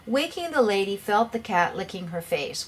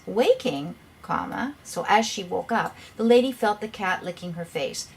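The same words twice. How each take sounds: First: No pause after "Waking"; run-on without a comma. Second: "Waking" set apart, comma named aloud; pause after "Waking". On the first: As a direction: run "Waking the lady" straight together as one phrase. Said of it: "Without a comma, you really don't understand". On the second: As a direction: break clearly after "Waking" before the rest. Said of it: "What the person's trying to say is". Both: Shown as a demonstration.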